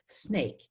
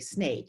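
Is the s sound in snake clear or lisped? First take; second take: lisped; clear. First: The s sound is lisped like th. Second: The s sound is clear and hissing. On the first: This is what the child actually produces. "I'll just use the example of a lisp" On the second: This is the word the child intends. "wants to say snake"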